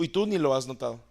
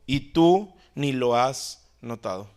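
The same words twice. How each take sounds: First: Said in the usual way. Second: Slow, with tú weighted and drawn out; complaint to God with tú emphasized; stress on tú. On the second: Shown as a demonstration. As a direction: lean hard on tú, accusing.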